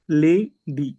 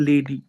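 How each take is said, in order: First: "lady" broken into two syllables, লে and ডি, with a gap; split into syllables. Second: Said in the usual way. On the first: Shown as a demonstration. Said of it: "দুটো syllable". (Lady শব্দটা দুটো সিলেবেলে ভেঙে, লে... ডি)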